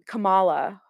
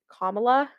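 First: It does not sound like comma plus la. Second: It sounds like the word comma plus la. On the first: The speaker calls it wrong. "if you've been pronouncing it like Kamala or something like that" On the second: The speaker calls it right. "if you just say comma and then add la at the end of it"

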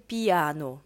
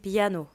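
First: The i is a separate full vowel. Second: The i glides into a y sound. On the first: The speaker calls it wrong. "мы не говорим «пиано»" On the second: The speaker calls it right. "мы говорим «пиано»"

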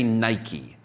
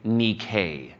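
First: It is pronounced the usual English way. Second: It is pronounced the original Greek way. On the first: This is how English speakers say it. "We say Nike" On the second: This is how Greek speakers say it. "They would say Nike"

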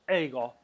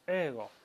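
First: The first vowel glides from e into i. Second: The first vowel is a long, steady e. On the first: The speaker calls it wrong. "no decimos ego" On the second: The speaker calls it right. "sino decimos ego. Es una estiración, un alargamiento de esa E"

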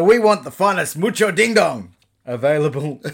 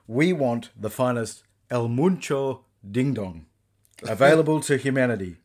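First: It is said in a put-on character voice. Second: It is said in the speaker's natural voice.

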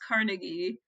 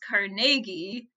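First: The name is said the American way. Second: The name is said the Scottish way. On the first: "in the U.S., at least in northern states in the U.S., it's usually pronounced Carnegie" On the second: "in Scotland it's pronounced Carnegie"

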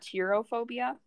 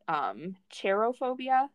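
First: The first syllable does not sound like cheer. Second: The first syllable sounds like the word cheer. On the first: The speaker calls it wrong. "not cherophobia" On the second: The speaker calls it right. "based on the root of like cherubs and things like that, like cheerful things"

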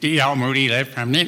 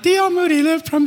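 First: The voice is pitched fairly low. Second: The voice is pitched noticeably higher. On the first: The speaker calls it wrong. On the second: The speaker calls it right.

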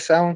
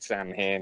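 First: It is said with its Irish pronunciation. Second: It is said the way it is spelled. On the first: This is the correct traditional pronunciation. The speaker calls it right. "it comes from Irish heritage" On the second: This is how someone unfamiliar with the word says it. The speaker calls it wrong. "Loomis calls it Samhain in H2"

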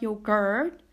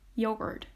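First: The last syllable has a full, unreduced vowel. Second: The last syllable has a reduced schwa vowel. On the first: The speaker calls it wrong. "It's not yogurt" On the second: The speaker calls it right. "Notice that schwa at the end"

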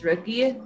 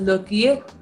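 First: The word begins with an R sound. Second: The word begins with an L sound. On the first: This is how it is said in English. "if we have to say it in English, it's Rookie" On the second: This is how it is said in Korean. "in Korean, they pronounce it as Looky"

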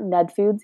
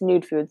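First: The first word sounds like 'ned'. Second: The first word sounds like 'nude'. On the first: The speaker calls it wrong. "it's not Ned Foods" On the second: The speaker calls it right. "it's Nude Foods"

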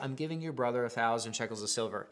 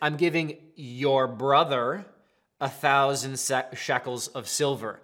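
First: It is said in a plain, sincere tone. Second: It is said in a sarcastic tone.

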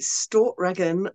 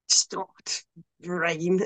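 First: The word runs smoothly without a glottal stop. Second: The word is broken by a glottal stop. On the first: "I pronounce it Stortregen" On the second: "the actual pronunciation of it has like a glottal stop in it"

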